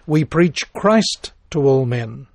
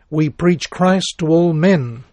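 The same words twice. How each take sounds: First: The stress is on "Christ". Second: The stress is on "men".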